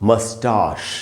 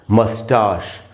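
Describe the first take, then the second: First: It is said with a British pronunciation. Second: The same.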